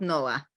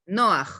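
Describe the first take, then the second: First: "Noah" as plain English No-uh, open vowel ending; standard Noah. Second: "Noah" ending in a guttural kh, like Noax; Israeli-accented Noah. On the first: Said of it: "and not Noah". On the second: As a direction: say "Noah" as Noax, throaty final h. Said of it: "I cannot get away from my Israeli accent". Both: Shown as a demonstration.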